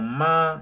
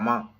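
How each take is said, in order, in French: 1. Il se prononce sur une hauteur haute et stable. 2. Il se prononce sans ton, léger et bref. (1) "avec le premier ton" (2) "ça n'a pas de ton"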